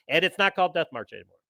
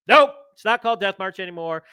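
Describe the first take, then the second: First: Said in the usual way. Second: "Nope" and "not" stressed, a bit louder; emphatic repeat. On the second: Shown as a demonstration. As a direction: hammer home that the title changed.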